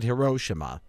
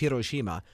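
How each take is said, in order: First: The name follows the common Western pronunciation. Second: The name follows the Japanese pronunciation. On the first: "everybody else pronounces it Hiroshima" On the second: "the Japanese pronunciation is Hiroshima"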